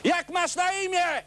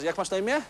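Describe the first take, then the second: First: It is said more loudly. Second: It is said at normal, quieter volume.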